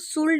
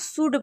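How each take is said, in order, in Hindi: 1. D से पहले L की आवाज़ सुनाई देती है। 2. D से पहले L की आवाज़ सुनाई नहीं देती। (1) "इसको शुल्ड नहीं पढ़ेंगे" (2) "इसको शुड पढ़ेंगे"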